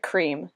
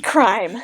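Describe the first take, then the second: First: The vowel is a long 'ee' sound. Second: The vowel is an 'eye' sound. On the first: The speaker calls it wrong. "I always want to pronounce it cream" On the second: The speaker calls it right. "but it's crime"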